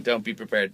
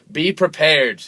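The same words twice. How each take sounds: First: Said in the usual way. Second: Loud, raised mock warning; mock ominous warning. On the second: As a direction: announce it like a doom-laden public warning. Mock warning, then taken back.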